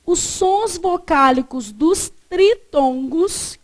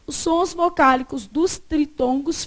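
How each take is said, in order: First: Slow, measured words, each spaced out; slow dictation. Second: Said in the usual way. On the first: Shown as a demonstration. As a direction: dictate it deliberately, word by word. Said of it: "você colocou pra mim assim".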